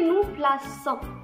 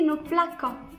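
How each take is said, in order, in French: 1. La consonne du milieu est un son s doux. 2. La consonne du milieu est un son k dur. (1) "on veut préserver le son S... On va la prononcer nous plaçons" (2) "si on n'a pas ajouté le cécidi, on va prononcer ici nous plaquons"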